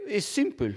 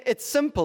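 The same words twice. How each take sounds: First: Lightly put-on French accent; mock French sculptor, a touch of accent; a French accent drifting toward Mexican. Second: Put-on a higher retry of the French accent; second go at the French sculptor, pitched up; a French accent retried after it came out Mexican. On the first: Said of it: "you can imagine the French kind of accent". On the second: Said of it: "That's like Mexican or something".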